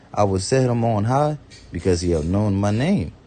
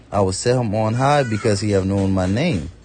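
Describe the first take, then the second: Both takes have the same delivery.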